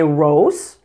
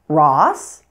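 First: The vowel is a rounded 'oh' sound. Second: The vowel is an open 'ah' sound. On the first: The speaker calls it wrong. "I've heard many non-native speakers say Rose" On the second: The speaker calls it right. "it may be pronounced as ah"

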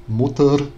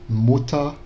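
Both takes have the same delivery.

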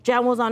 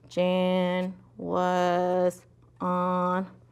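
First: The words are read very quickly. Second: The words are read very slowly. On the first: "That's too fast" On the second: "That's too slow"

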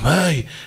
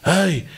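First: It is a pained cry of discomfort. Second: It is a pained cry of discomfort.

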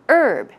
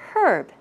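First: The word starts with a vowel, with no H sound. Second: The word starts with a clear H sound. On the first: This is the usual American pronunciation. "First of all, without the H sound" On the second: This is the usual British pronunciation. "in British English, you would pronounce it with the H sound"

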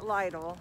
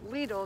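First: The word does not rhyme with needle. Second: The word rhymes with needle. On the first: The speaker calls it wrong. "not Lidl" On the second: The speaker calls it right. "it's pronounced Lidl, ... It rhymes with needle"

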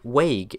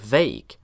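First: The word begins with a w-like sound. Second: The word begins with a v sound. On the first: The speaker calls it wrong. "Chinese people saying things like vague" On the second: The speaker calls it right. "instead of vague"

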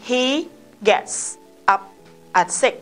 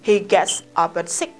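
First: Each word is said separately and slowly. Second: The words run together with linked sounds. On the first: The speaker calls it wrong. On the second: The speaker calls it right.

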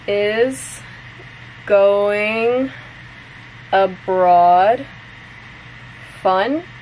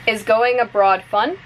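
First: The sentence is said slowly. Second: The sentence is said at normal speed. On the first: "I'm going to say it slowly first" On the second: "one more time at normal speed"

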